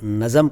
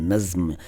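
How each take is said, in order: First: An extra vowel splits it into two syllables. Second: The consonants join with no vowel between them. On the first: The speaker calls it wrong. "वो भी गलत है" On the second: The speaker calls it right. "नज़्म है"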